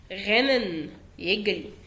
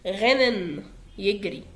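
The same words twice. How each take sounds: The two takes are said the same way.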